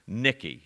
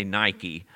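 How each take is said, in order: First: "Nikki" with a short i, as NICK-ee; "Nikki" the Greek way, first vowel short; Greek pronunciation. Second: "Nike" with a long i, as NY-kee; "Nike" the modern way, first vowel like "eye"; modern pronunciation. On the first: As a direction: say "Nikki" to rhyme with Ricky. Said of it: "remember this little word". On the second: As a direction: say "Nike" to rhyme with Mikey. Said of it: "we say Nike, nowadays". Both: Shown as a demonstration.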